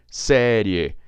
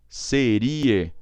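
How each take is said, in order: First: The stress is on the first syllable. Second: The stress is on the second syllable. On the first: The speaker calls it right. "jogo aqui para a tônica da fala, que é o e" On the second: The speaker calls it wrong. "Se eu não acentuar, eu sou obrigado a falar seria"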